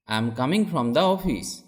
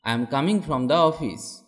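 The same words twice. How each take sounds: The two takes are said the same way.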